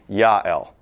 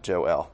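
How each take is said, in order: First: The name is said in its Hebrew form. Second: The name is said in its English form. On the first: "if you really want to pronounce it in Hebrew, it would be Yael" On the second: "not Joel"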